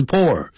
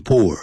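First: "poor" said as pour, with an open OR vowel; "poor" with a rounded o, as in pour; pronouncing pour. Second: "poor" with a tight OO vowel; "poor" with the lips rounded for oo; pronouncing poor. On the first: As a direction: say "poor" like "pore", pitched up. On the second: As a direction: say "poor" like "poo-er". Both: Shown as a demonstration. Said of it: "发音很不同".

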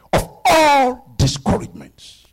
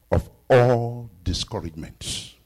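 First: Higher, louder, slow build on all; preaching emphasis. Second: Said in the usual way. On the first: Acted. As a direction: hammer the point home. Repeated, now with force.

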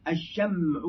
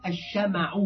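First: "الشمع" as ash-sham'u, vowelless mim; sukun on the mim. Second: "الشمع" as ash-shama'u, open mim; fatha on the mim. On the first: Teacher quoting a language book, "الشمع" with sukun on mim. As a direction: say "الشمع" with mim running straight into ayn. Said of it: "بالتسكين ليس من لغة العرب". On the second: Teacher giving the eloquent form, "الشمع" with fatha on mim. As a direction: say "الشمع" with a short a after the mim. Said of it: "بالفتح". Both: Shown as a demonstration.

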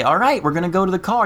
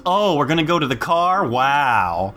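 First: Quick, higher-pitched mom voice; mom announcing. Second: Mock-amazed sarcastic child. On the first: Retold or imitated. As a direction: imitate a mother briskly announcing an outing. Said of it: "Like, she'll say". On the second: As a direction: echo it back with fake wonder, dropping on "Wow". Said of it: "he's learned sarcasm at four".

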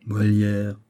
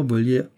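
First: Second "Molière" begun with a clear M; slow corrective "Molière", M in place of V; name correction. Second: First "Molière" begun with V, as Volière; V replaces the M of "Molière"; mistaken name. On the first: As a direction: put the M back on "Molière". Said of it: "Tenez, décidément". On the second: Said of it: "Vous avez dit le mot". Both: Acted.

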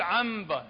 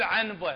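First: عنبة said ʕamba, the n turned to m before b; عنبة with an m sound; iqlab. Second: عنبة with a full n before the b; the wrong version of عنبة; wrong clear n. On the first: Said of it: "لازم نقول عنبة بالميم". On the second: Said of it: "ما يصير نقول عنبة، خطأ". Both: Shown as a demonstration.

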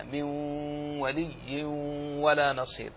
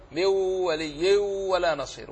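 First: من ولي said as مولي, the نون fully merged into a doubled لام with no ghunna; correct merging. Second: Slow, the نون of من kept as a false ghunna from the mouth before ولي; wrong ghunna demo. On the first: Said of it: "الصحيح هكذا". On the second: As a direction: sound the نون in من ولي with a mouth-made hum, as the common mistake. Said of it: "وهم يزعمون أنها غنة ليست بغنة، من الفم". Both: Shown as a demonstration.

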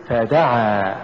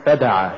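First: فدعا with ف set apart and دعا pushed; push after fa. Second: فدعا short, run together as one word; wrong stress. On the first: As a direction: lean on the د and draw out فدعا. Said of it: "قل". (نطق فدعا بدفع الدال بعد الفاء) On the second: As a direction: say فدعا quickly, weight on the ف. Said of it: "ولا تقل". (نطق فدعا ككلمة واحدة دون دفع الدال) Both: Shown as a demonstration.

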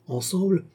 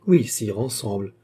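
First: "ensemble" rising high at the end; questioning echo. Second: "ensemble" with a falling, settled tune; confirm, letting "ensemble" fall at the end; firm confirmation. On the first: Checking with the princess, "ensemble" as high rising question. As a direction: lift "ensemble" sharply upward as a question. Echoed as a question, then confirmed. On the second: Princess confirming to the king, "ensemble" falling. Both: A narrator's reading.

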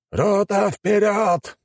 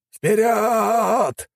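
First: High barked order to charge; shouted command. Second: High shouted battle cry; cover me shout. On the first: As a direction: yell it across the battlefield. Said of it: "приказал османский командир". (командный крик) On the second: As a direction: scream the charge over gunfire. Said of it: "кричал командир". (боевой крик) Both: A narrator's reading.

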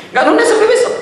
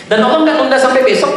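First: Much higher, with a laugh, nggak nunda pushed up high; emphatic repeat. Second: Said in the usual way. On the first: Shown as a demonstration. Preacher assuring the congregation Allah won't delay, delighted. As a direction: repeat it higher and gleeful, grinning through it.

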